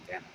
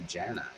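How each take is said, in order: First: The name begins with a hard G sound. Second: The name begins with a soft J sound. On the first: This is the name used in the newer movie. The speaker calls it wrong. "Why the guh?" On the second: This is the name used since the first season. The speaker calls it right. "I know Janai"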